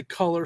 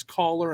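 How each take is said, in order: First: Said in the usual way. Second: "collar" for color, with an open first vowel; accented "collar". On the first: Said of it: "when she's trying to say". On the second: Retold or imitated. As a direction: imitate her accent, turning color into "collar". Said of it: "she says".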